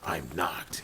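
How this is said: It is said in a deep, gravelly voice.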